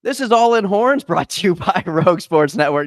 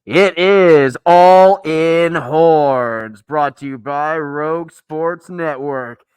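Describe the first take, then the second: First: Plain. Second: Slow, loud spooky monster intro. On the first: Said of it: "I'm done with this". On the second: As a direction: boom it out like a monster. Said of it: "I'm gonna take this off". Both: Acted.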